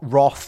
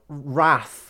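First: The vowel sounds like 'Roth'. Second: The vowel does not sound like 'Roth'. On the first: "not wrath, like Eli Roth" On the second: "you meant like wrath"

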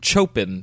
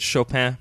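First: The name is said in a plain, folksy way. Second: The name is said in a careful, refined way. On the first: This is how unsophisticated people say the name. "That's like Chopin for you yokels" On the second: This is the proper way to say the name. "I'm going to say all it's right... that's how I pronounce the composer's name"

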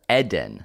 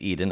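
First: The first syllable is a short 'ed' sound. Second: The first syllable is a long 'ee' sound. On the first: This is the way the family wants it said. "they want me to say Eden. Saying Ed, like Edward, and then the letter N" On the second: This is the usual English way to say it. "in English, it's Eden, of course"

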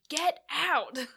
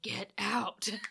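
First: It is yelled loudly and forcefully. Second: It is spoken at a normal volume. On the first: The voice insisted more urgently the second time. "like, yelled it, like" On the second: The voice simply spoke the warning. "it just said"

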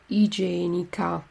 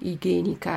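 First: The g is soft, like a j sound. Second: The g is hard, like in go. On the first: The speaker calls it right. "Carta igienica" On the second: The speaker calls it wrong. "non igienica"

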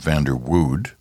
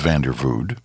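First: The middle consonant is a W sound. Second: The middle consonant is a V sound. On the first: The speaker calls it wrong. "not Vanderwood" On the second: The speaker calls it right. "I think you pronounce that W like a V"

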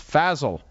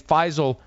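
First: The name rhymes with Basil. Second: The name does not rhyme with Basil. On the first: The speaker calls it right. "my name is pronounced like Basil with an F" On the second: The speaker calls it wrong. "I've been saying it wrong"

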